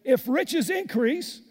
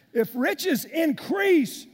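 First: Said in the usual way. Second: "If riches increase" shouted slowly, high and loud; loud preaching. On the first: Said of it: "reads verse then repeats". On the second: Shown as a demonstration. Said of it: "repeats verse, preaching".

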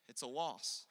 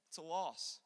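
Both takes have the same delivery.

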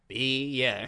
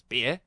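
First: Drawn-out Australian "Beer", falling at the end; mimicked barman slowly confirming "Beer". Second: Brief questioning Australian "Beer?", rising; lightly mimicked Australian barman, rising on Beer. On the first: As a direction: stretch Beer into two syllables, Aussie style. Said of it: "And he goes". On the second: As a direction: check the order as an Aussie barman. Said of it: "And the guy goes".

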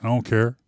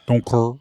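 First: Said in the usual way. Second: "care" said as "curr"; playful mispronunciation. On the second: Pretend. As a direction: turn the vowel of "care" into an "er" sound. Repeat of line with altered vowel.

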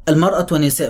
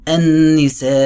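First: Said in the usual way. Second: النساء with a humming ن and long drawn ا; nasal ghunna and madd. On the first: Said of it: "تعال كده قول". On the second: Shown as a demonstration. Teacher chanting النساء with ghunna and madd. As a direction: hum the ن in النساء then stretch the vowel. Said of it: "غنة ومد".

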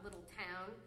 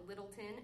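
First: Little Town as two words, full "town"; spelled-out pronunciation. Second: Littleton, ending reduced to an unstressed "tun"; locals' pronunciation. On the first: Contrasting it with the locals' name, Little Town said in full. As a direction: give Little Town a clear "ow" vowel. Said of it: "called it Littleton and not". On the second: Contrasting the locals' name with the outsiders', Littleton with weak ending. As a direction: run Littleton together as one word. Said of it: "and not Little Town". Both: Shown as a demonstration.

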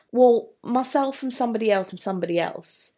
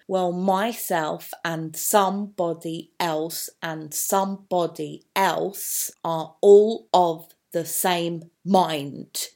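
First: Words tumbling out fast, picking up speed; quick listing rush of names; building speed. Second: Well, myself and somebody else read slowly with each first syllable stressed; slow, measured reading with stressed first syllables; trochee stress. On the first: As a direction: rush the list forward. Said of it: "Building up speed". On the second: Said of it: "We've got the trochees as well". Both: Shown as a demonstration.

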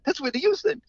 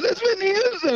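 First: High, astonished recognition; amazed exclaim. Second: Much higher, louder shriek of amazement; amazed squeal. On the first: Caterer sees [name] wave from the limo, high amazed exclaim. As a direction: gasp it out in disbelief, high. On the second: Caterer shrieks at seeing Whitney Houston, high loud squeal. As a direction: squeal it like a starstruck fan. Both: Retold or imitated.

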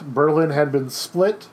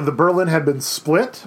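First: Repeated slowly, each word weighted; slow it down so it sinks in; slow emphatic repeat. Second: Said in the usual way. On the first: Shown as a demonstration. Teacher repeating for the class, slow and emphatic.

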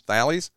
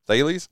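First: Thales with a short a, "THAL-eez", rising; doubtful pronunciation. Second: Thales with a long a, "THAY-leez", rising; second-try pronunciation. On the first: Host checks the team's name with co-host, Thales tried as "THAL-eez?". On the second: Host checks the team's name with co-host, Thales retried as "THAY-leez?". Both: Real, not acted. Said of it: "how do you pronounce T H A L E S".

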